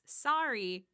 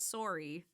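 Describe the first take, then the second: First: The first vowel is an open ah sound. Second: The first vowel is a rounded oh sound. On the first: The speaker calls it right. "Americans pronounce it as sorry with an A" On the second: The speaker calls it wrong. "not sorry"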